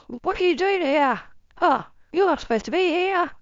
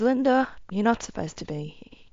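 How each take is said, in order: First: Put-on high, scolding older woman voice; great-grandmother scolding the intruder, pitched high and frustrated. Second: Level, settled, gentle voice; great-grandmother, now calm, gently telling Linda she shouldn't be here. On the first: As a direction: chide her like an exasperated ancestor. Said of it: "She's so frustrated with me". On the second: Retold or imitated. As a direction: say it once she's composed herself. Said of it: "As she calms down".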